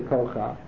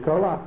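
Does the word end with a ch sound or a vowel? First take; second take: vowel; ch sound. First: The word ends with a vowel after ch. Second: The word ends with a ch sound. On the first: The speaker calls it wrong. "so you don't say Kocha" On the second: The speaker calls it right. "you say Koach"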